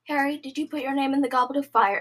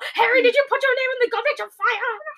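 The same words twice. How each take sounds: First: It is said in a calm voice. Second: It is said in an aggressive voice.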